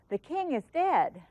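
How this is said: It is said with surprise and emotion.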